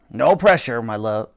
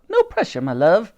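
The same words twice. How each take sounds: First: Said in the usual way. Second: High-starting motherly character line; Dottie's character voice. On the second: A narrator's reading. Dottie adds unhelpful comfort to Titch, high character voice. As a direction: add it in a raised character voice.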